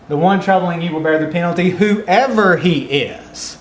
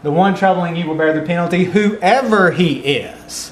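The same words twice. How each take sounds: First: It sounds emphatic, whatever the person's standing. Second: The same.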